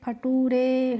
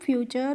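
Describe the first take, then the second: First: The ending is read letter by letter as tooray. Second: The ending is pronounced as a short cher. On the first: The speaker calls it wrong. "इस तरीके से नहीं पढ़ना है" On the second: The speaker calls it right. "टी यू आर ई का हो गया चर"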